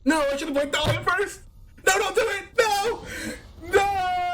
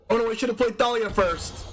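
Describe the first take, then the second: First: Panicked. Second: Regret. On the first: Streamer regrets misplaying Thalia, begs opponent, panicked. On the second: First, lower take of regret. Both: Real, not acted.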